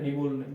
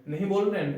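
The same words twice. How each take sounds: First: नहीं बोल रहे हैं। said as a flat falling statement; giving the answer. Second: नहीं बोल रहे हैं? asked with a rising, higher question tune; asking the question. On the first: Teacher answering his own yes-no question. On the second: Teacher asking the class a yes-no question. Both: Shown as a demonstration. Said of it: "हाँ, बोल रहे हैं।".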